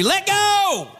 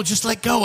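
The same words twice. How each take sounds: First: High, urgent yell at the screen; high-pitched exasperated holler. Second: Said in the usual way. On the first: Retold or imitated. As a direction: yell it like pleading with the TV. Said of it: "I'm yelling in the documentary".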